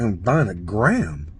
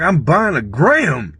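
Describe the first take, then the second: First: GRAM drawn out long, pitched low; stress on gram. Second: GRAM stretched out, pitched up; exasperated stress on gram. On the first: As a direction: say it slowly and low, stretching "gram". Insisting he only wants a gram. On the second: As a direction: protest slowly, higher, leaning on "gram". Protesting the half ounce joint. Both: Retold or imitated.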